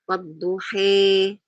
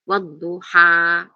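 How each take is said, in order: First: The final vowel is bent toward an 'e' sound. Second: The final vowel is a plain open 'a'. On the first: "imalah itu berarti pertengahan antara alif dan fathah dan kasroh" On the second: "istilah fathah itu berarti dibaca fathah normal"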